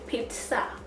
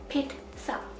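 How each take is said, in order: First: The middle has a 't' sound, like 'ts'. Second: The same.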